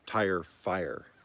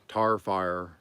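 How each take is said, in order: First: Tire is said with a full 'eye' vowel. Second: Tire sounds like tar, Oklahoma style.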